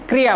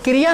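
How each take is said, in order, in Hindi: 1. Cluster में k सीधे r से जुड़ जाता है। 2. एक स्वर k और r को अलग करता है। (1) "क आधा है और ये मात्रा रे पर चली गई है" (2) "क्रिया ना बनकर"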